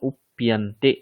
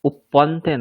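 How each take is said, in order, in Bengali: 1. মাঝের ব্যঞ্জনটি p-এর সঙ্গে y মিশে আছে। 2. মাঝের ব্যঞ্জনটি দ্বিত্ব p ধ্বনি। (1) "প আর ইয়া দুটো মিলে প্যা" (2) "উপ্পন্তে নয়"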